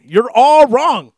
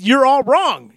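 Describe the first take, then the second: First: "You're all wrong" slow and loud, leaning hard on "all"; slow emphatic repeat. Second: "you're all wrong" said high and loud, falling on "wrong"; emphatic. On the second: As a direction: state "you're all wrong" firmly, landing on "wrong". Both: Real, not acted. Repeats his verdict.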